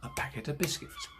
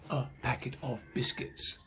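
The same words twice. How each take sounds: First: Only packet and biscuits are stressed. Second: Every word gets roughly equal stress. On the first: The speaker calls it right. "We stress the important words. Packet biscuits" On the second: The speaker calls it wrong. "we don't say"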